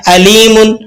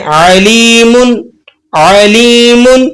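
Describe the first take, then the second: First: अलीमुन opening on a light glottal hamza. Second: अलीमुन slow, with a throaty आइन at the start; with ain. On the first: Teacher showing the hamza reading that changes meaning. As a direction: start अलीमुन with a plain catch, no ain. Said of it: "अलीमुन अगर आपने हमज़ा से इसको pronounce कर दिया". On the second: Teacher showing the ain reading of the word. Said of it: "अगर इसको हम आइन से पढ़ें". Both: Shown as a demonstration.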